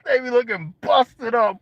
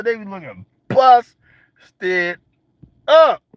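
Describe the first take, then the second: First: Said in the usual way. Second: Slow comic drawl on "They be looking busted up"; drawn out. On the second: Real, not acted. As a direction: drag out "busted" then punch "up".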